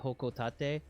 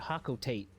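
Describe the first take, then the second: First: It is said with Japanese-style vowels. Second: It is said with English-style vowels. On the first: "it's supposed to have a Japanese-style pronunciation, then it would be" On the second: "I grew up pronouncing it"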